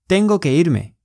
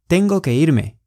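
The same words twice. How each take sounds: The two takes are said the same way.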